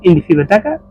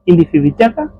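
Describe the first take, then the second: First: It is said fast, the vowel after b dropped. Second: It is said fully, the vowel after b kept. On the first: "वो जल्दी से बोलते हैं तो हमको बताका सुनाई देता है" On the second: "ज़्यादा करके बिताका कहते हैं"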